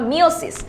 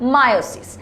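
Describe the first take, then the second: First: The first vowel sounds like 'ee'. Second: The first vowel sounds like 'eye'. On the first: The speaker calls it wrong. "যেটাকে আমরা আগে বলতাম মিওসিস" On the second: The speaker calls it right. "আসল pronunciation হচ্ছে মায়োসিস"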